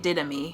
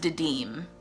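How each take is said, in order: First: The name is said with three syllables. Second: The name is said with two syllables. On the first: The speaker calls it wrong. "I've been pronouncing it Didami" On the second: The speaker calls it right. "The internet says it's pronounced Didim"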